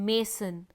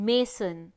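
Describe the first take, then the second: Both takes have the same delivery.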